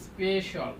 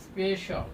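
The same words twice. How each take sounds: First: The ending is said as 'shal'. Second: The same.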